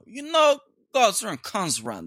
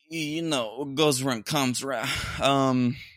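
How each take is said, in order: First: It is said in a put-on Italian accent. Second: It is said in the speaker's normal accent.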